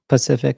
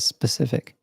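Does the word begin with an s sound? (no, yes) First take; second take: no; yes. First: The first s sound is dropped. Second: The word begins with an s sound. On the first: The speaker calls it wrong. "They'd say Pacific instead of specific" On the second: The speaker calls it right. "instead of specific"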